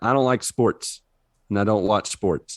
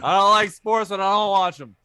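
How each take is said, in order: First: It is read in the speaker's normal voice. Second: It is read in a grumpy old man voice.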